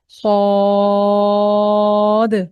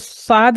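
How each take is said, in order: First: The letter name is pronounced heavy and full. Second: The letter name is pronounced thin and light. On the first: The speaker calls it right. "इसको मोटा पढ़ना है और इसको मोटा निकालना है" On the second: The speaker calls it wrong. "इसको साद नहीं कहना है"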